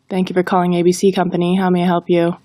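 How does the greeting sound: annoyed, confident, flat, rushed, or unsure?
flat. It is read in a flat monotone. "If we read it in a monotone, it falls flat"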